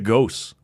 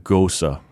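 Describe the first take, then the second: First: The word is said as one syllable. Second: The word is said as two syllables. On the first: The speaker calls it wrong. "did you know we were saying that wrong?" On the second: The speaker calls it right. "It's apparently it's a Gosa"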